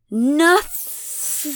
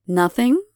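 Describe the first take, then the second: First: Wet, drawn-out, higher-pitched NOTHING; spat defiantly. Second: Short NOTHING with rising tune; questioning echo. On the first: Abigail defies the goddess, spitting NOTHING. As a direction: spit out NOTHING in two wet syllables. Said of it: "With as much moisture as she can muster between syllables, she spits". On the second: Elena repeats Abigail's answer, NOTHING rising in question. Goddess echoes the defiant answer. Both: A narrator's reading.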